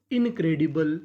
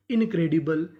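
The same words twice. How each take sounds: The two takes are said the same way.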